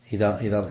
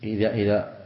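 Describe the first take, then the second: No difference in how they are said.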